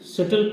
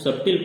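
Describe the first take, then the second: First: No 'b' sound is heard in the middle. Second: A 'b' sound is heard in the middle. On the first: The speaker calls it right. "इसमें बी शब्द silent है, इसलिए इसको सटल पढ़ा जाता है" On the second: The speaker calls it wrong. "अगर पूरा अक्षर पढ़ा जाए तो इसको सबटिल पढ़ा जाएगा"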